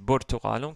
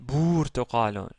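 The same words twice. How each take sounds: First: The first vowel is kept short. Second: The first vowel is held long. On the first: The speaker calls it right. "avec une voyelle courte, dhamma" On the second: The speaker calls it wrong. "si c'était une voyelle longue, on aurait dit"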